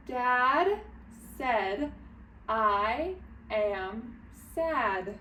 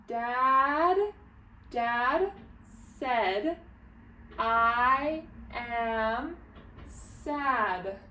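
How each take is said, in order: First: Measured reading with shorter gaps; a little faster. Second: Stretched words, each one on its own; slow sounding-out reading. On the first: Teacher practices reading it again, a little faster but careful. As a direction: still slow, word by word, slightly more joined. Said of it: "reading it a little bit faster". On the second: Teacher reads together with early readers, slow and word by word. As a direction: read word by word with long gaps. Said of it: "Let's read it together". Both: Shown as a demonstration.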